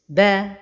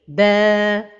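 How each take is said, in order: First: The vowel is not held for its full length. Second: The vowel is held out for its full length. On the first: The speaker calls it wrong. "ne pas donner le temps exact de la prolongation" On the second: The speaker calls it right. "la prononciation correcte"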